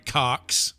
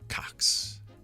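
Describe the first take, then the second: First: The name is said with strong emphasis. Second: The name is said plainly, without emphasis.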